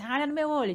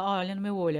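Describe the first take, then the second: First: It is said in an angry, scolding tone. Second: It is said in a gentle, loving tone.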